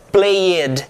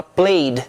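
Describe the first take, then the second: First: "played" split in two, play-ED, with a full "ed"; wrong -ed as extra syllable. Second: "played" in one syllable, ending on a soft D; correct soft -ed. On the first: English teacher showing students the mistake, "played" with an added syllable. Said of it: "Você não diz played". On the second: English teacher showing students how it is said, "played" as one syllable. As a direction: say "played" as "playd", the E silent. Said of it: "você fala played". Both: Shown as a demonstration.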